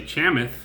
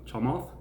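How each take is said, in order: First: "Chamath" with a flat A and no L; mispronunciation. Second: "Chamath" with an L before the th; pronunciation attempt. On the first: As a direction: say "Chamath" as "CHAM-ith". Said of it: "say I'm doing it wrong". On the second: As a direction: say "Chamath" as "cha-MALTH", softly. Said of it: "tried to learn how to pronounce". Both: Shown as a demonstration.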